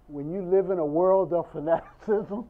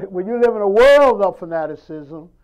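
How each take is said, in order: First: Said in the usual way. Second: The repeated line said louder, with a laugh; louder laughing restatement of when you live in a world of fanaticism; emphatic repeat. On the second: Shown as a demonstration. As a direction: hit it hard the second time so it lands. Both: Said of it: "Did you hear what I just said?".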